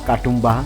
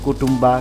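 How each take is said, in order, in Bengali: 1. নামটি Katumba বলা হচ্ছে, ka দিয়ে শুরু। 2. নামটি Kutumba বলা হচ্ছে, t ধ্বনি দিয়ে। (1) "বিভিন্নভাবেই উচ্চারণ করেছি" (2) "নামটা ভুল উচ্চারণ করেছি"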